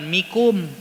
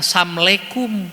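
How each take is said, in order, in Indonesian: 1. Hanya dua suku kata terakhir yang diucapkan. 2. Beberapa suku kata dihilangkan dan digabung. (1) "Bukan mikum" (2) "bukan samlekum"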